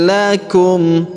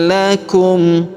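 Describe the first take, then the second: The two takes are said the same way.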